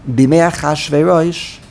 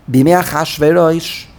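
No difference in how they are said.

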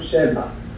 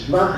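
First: A short vowel separates the sh and the v. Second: The word starts with a tight shv cluster. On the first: The speaker calls it right. "We learn the word Shevach" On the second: The speaker calls it wrong. "everybody says Shvach instead of Shevach. It's a plain mistake"

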